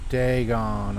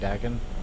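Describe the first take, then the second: First: The first vowel differs from the vowel in dragon. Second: The first vowel matches the vowel in dragon. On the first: The speaker calls it right. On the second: The speaker calls it wrong.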